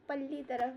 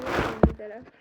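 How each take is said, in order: First: Said in the usual way. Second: पल्ली तरफ barked out much louder in rough western UP style; harsh UP dialect. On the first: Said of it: "बोलते हैं UP में". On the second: Shown as a demonstration. Teacher mimics harsh western UP speech, much louder. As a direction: bark पल्ली तरफ like a Meerut local. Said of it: "इतना harsh वो लोग बोल रहे थे".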